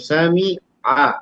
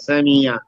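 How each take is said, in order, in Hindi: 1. अंतिम स्वर से पहले एक छोटा सा विराम आता है। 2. 'y' की ग्लाइड अंतिम स्वर से जुड़ती है। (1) "जब रुकेंगी थोड़ा सा, समी आ" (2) "तो या कहना आसान हो जाता है"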